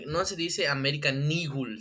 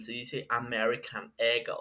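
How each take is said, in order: First: Said in the usual way. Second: "American Eagle" said lower and softer, in a put-on American way; mocking snooty "American Eagle" in English; mock English accent. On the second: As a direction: parody a know-it-all correcting "American Eagle". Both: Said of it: "cómo se pronuncian bien las marcas".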